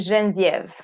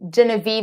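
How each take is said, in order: First: The name is said with a French pronunciation. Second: The name is said with an English pronunciation. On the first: "so in French, we would say" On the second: "is just the English uh, uh, pronunciation"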